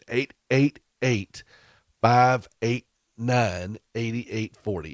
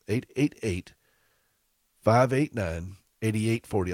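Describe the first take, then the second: First: The number is said slowly. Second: The number is said at normal speed.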